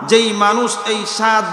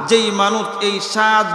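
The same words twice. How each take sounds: The two takes are said the same way.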